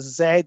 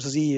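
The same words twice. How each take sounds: First: The letter is said the British way, zed. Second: The letter is said the American way, zee.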